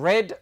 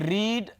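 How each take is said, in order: First: The vowel is a short 'e' sound. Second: The vowel is a long 'ee' sound. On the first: It is the past or past participle form of the verb. "As a second form या as a third form ... pronunciation बन जाती है रेड" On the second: It is the present form of the verb. "रीड जो हमारे पास first form of the verb"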